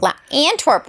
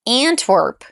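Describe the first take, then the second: First: Antwerp said higher, with a clear "an" at the start; a touch of an excited tourist saying Antwerp; mock tourist pronunciation. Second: Antwerp said as /əntʰwər p/, with the first vowel reduced to a schwa; flat American Antwerp with a heavy r; own American way of saying it. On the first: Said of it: "The way that I say it". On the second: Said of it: "The way that I say it, though, is the pits". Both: Shown as a demonstration.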